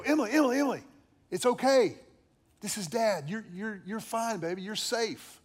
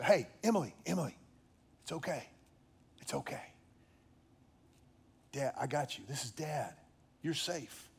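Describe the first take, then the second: First: Urgent calling. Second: Softer, hushed reassurance dropping to a whisper; softer soothing near-whisper to a crying child; soothing comfort. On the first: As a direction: call her out of the nightmare. Father waking screaming daughter. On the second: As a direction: soothe her back to calm. Father comforting crying daughter. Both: Retold or imitated.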